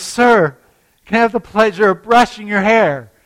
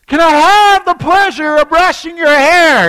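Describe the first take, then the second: First: Higher, louder polite offer; politely raised voice. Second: Much higher and louder shouted offer; full shouted polite question. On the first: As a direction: lift it so a deaf old man hears. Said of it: "So she says". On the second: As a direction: shout it across the whole airport. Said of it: "And so she shouts". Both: Retold or imitated.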